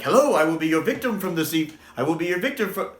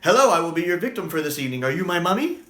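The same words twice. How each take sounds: First: Halting, tripping over the words; botched first try; stumbling slow take. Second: Rattled off quickly; quick clean retake; fast delivery. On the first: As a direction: fumble the line at normal speed. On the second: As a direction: fire the whole line off fast. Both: Shown as a demonstration. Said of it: "I can't do this really quick".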